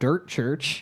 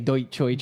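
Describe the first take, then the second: First: The first word sounds like 'dirt'. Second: The first word sounds like 'deutsch'. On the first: The speaker calls it right. "it's Dirt Church" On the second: The speaker calls it wrong. "I say Deutschchurch instead of Dirt Church"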